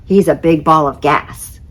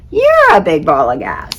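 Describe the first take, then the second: First: Said in the usual way. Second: Jupiter retort. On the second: Acted.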